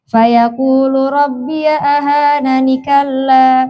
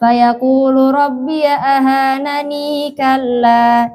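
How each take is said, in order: First: Ahanani ends without an added 'ee' sound. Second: Ahanani ends with an added long 'ee' sound. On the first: "yang kedua" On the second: "Yang pertama"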